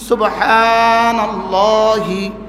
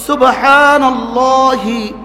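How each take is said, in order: First: The word ends with a final i vowel. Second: The word ends with a final i vowel.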